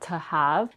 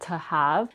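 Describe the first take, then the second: First: The vowel in 'to' is reduced to schwa. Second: The vowel in 'to' is reduced to schwa.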